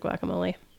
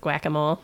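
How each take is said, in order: First: The word has its usual pronunciation. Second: The word is said to sound like whack-a-mole. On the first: The speaker calls it right. "instead of guacamole" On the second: The speaker calls it wrong. "he also says guacamole instead of"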